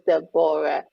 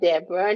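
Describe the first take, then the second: First: The name is said syllable by syllable. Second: The name is said quickly, run together. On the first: The speaker calls it right. "the Bible was in syllabus. So she would pronounce the Deborah" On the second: The speaker calls it wrong. "not Deborah"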